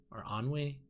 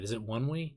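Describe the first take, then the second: First: "Onwe" said like "on-we"; unsure try of "Onwe" as "ahn-wee"; alternative pronunciation. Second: "Onwe" said like "one-we"; unsure try of "Onwe" as "wun-wee"; trying a pronunciation. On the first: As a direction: say "Onwe" with an open vowel first, AHN-wee. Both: Shown as a demonstration. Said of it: "I don't even remember how to say it".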